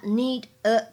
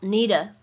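First: The two words are said separately. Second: The two words run together as one.

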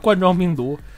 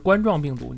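First: The first syllable is not said like 王冠. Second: The first syllable is said like 王冠. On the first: The speaker calls it wrong. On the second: The speaker calls it right.

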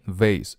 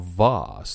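First: It is said in an American accent. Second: It is said in a British accent. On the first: "是美式发音" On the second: "那是英式发音"

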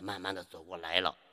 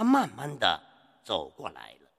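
First: The final syllable carries a full tone. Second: The final syllable is short and toneless. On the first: The speaker calls it wrong. "千万不能把读成这样" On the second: The speaker calls it right. "一定要读轻声"

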